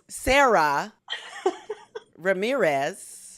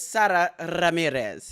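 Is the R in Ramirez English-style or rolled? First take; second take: English-style; rolled. First: The name is said with English-style sounds. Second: The name is said with a rolled R. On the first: "Anglo-Saxon uh pronunciation is" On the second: "I think I got it right"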